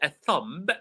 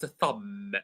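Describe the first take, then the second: First: A B sound is heard at the end. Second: The B at the end is silent. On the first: The speaker calls it wrong. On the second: The speaker calls it right.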